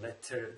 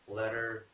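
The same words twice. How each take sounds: First: The T is pronounced as a crisp T. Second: The T is softened into a quick flap. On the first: "that's British English" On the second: "Americans say letter"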